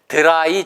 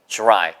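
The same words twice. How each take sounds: First: It starts with a plain d sound. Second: It starts with a j-like sound. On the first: The speaker calls it wrong. "dry 절대 아니고" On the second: The speaker calls it right. "주 발음이 되더라"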